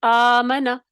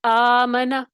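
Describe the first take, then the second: First: آمنا repeated, the first آ held long, aa-mana; recitation demo. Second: آمنا read slowly with a long first vowel, aa-mana; teacher models آمنا with the drawn-out opening آ; recitation demo. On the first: Teacher repeats آمنا for students, with a long first vowel. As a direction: say آمنا again, stretching the opening آ. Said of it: "ٹھیک ہے؟". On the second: Teacher demonstrates آمنا for students, with a long first vowel. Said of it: "اس حمزہ کو کیا کریں گے؟". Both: Shown as a demonstration.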